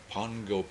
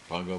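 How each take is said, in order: First: It is said with an 'ng' sound inside. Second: It is said plainly, with no 'ng' sound. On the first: The speaker calls it right. "But that's the way they say it" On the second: The speaker calls it wrong.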